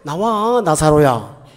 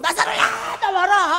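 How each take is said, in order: First: It is said softly and gently. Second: It is said loudly and harshly.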